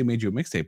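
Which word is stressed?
mixtape. The stress falls on the word mixtape.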